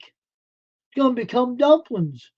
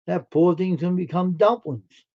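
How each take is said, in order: First: High, slow sing-song lament; drawn-out high mock wail over the rooster. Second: Said in the usual way. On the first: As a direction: stretch it out high like a mock dirge.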